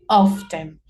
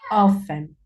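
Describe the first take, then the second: First: The t sound is pronounced. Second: The t sound is dropped.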